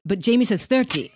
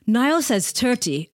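First: "thirty" with a clear TH sound at the start. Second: "thirty" with a hard T, like "tirty"; Northern Irish thirty. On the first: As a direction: say "thirty" with the TH kept. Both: Shown as a demonstration. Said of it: "that T H thing's a Northern Ireland thing".

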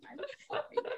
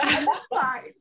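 First: Squeaky breaking I'm fine; shaky sigh. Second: Forced laughing I'm fine; choked up, laughing it off; shaky sigh. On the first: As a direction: voice cracks high and soft. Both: Real, not acted. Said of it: "I'm trying not to cry".

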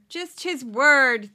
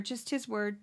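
First: "Just his word" said loud and very slowly, with "word" stretched; slow, incredulous stress on "word"; drawn-out emphasis. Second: Said in the usual way. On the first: Real, not acted. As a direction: hammer "word", loud and long. Repeats phrase for sarcastic emphasis.

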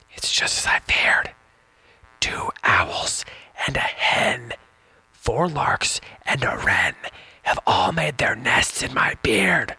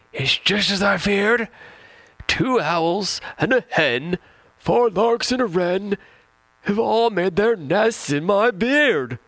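First: Put-on slow whispered old man's words; whispered fretful old man. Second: Put-on high, slow, loud old man's wail; over-the-top high-pitched old man complaining; with emphasis. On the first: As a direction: hush it like a secret. Second reading, quote whispered. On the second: Shown as a demonstration. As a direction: ham up the old man's alarm in a high squeaky voice. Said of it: "one more time with emphasis".

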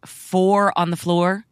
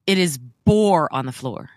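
First: "four" said with an F, slowly; "four on the floor" with a clear F sound; wrong word. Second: "boar" said with a B, stressed; "boar on the floor", B hit clearly; corrected word. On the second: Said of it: "Boar as in pig". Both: Shown as a demonstration.

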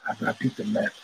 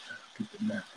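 First: Said in the usual way. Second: "I beat the meth" whispered, much softer; whispered repeat. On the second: Retold or imitated. Quoting his friend, repeating it in a whisper. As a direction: breathe the repeat as a hushed aside.

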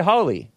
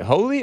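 First: "Holly" like the shrub, rising then falling; short vowel, HAH-lee. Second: "holy" with the o of go; long o, HOH-lee. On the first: Wondering how the festival is said, "Holly" as HAH-lee. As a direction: contrast "Holly" with an open ah vowel. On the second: Wondering how the festival is said, "holy" with a long o. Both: Shown as a demonstration. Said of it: "Is it holy or is it Holly?".

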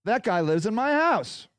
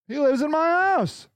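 First: Said in the usual way. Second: Higher repeat, leaning on "house"; emphatic repeat. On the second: Real, not acted. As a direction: stress "house" to drive it home.

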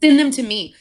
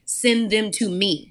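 First: Louder and higher, hitting send; emphatic repeat. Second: Slow and deliberate, each word placed; slow voice of the Lord. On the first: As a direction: push it out with conviction. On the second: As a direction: hand it over gently and slowly. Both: Retold or imitated. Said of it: "feel the Lord, even in this moment, say".

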